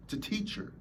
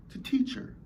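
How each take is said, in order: First: Dropped, much softer; quiet. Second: Breathy whisper, higher. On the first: Speaker hushing the point about pain. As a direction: let it fall to near silence. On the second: Speaker whispering that pain is a teacher. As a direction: whisper it like a secret. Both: Shown as a demonstration. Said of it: "repeats line softer then whispered".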